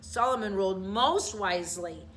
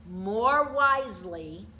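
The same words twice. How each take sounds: First: "most" stressed as the correction. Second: "more wisely" said slowly, rising, stress on "more". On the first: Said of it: "I'm sorry". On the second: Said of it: "I'm sorry, Solomon ruled most wisely". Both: Shown as a demonstration.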